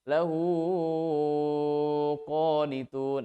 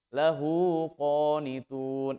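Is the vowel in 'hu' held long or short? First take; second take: long; short. First: The vowel in 'hu' is held very long. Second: The vowel in 'hu' is held only briefly. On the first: The speaker calls it wrong. "Yang dibaca eh, enam harokat. ... Ini kepanjangan" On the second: The speaker calls it right.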